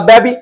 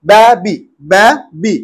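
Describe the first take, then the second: First: Said in the usual way. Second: ব্যাবি slowly in two separate beats; split into syllables. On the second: Shown as a demonstration. Teacher showing a two-syllable word, ব্যাবি said syllable by syllable. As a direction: break ব্যাবি after ব্যা, pause, then বি. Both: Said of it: "ডাইসিলেবলের মধ্যে পড়ছে".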